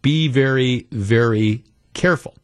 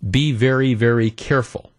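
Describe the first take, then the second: First: It is said in a mock Japanese accent. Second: It is said in a plain, ordinary accent. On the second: "At least he doesn't say it like that"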